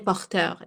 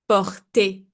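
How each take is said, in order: First: The word ends with an 'er' sound. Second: The word ends with an 'ay' sound. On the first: The speaker calls it wrong. "I don't say porteur" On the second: The speaker calls it right. "So the er has the sound of e"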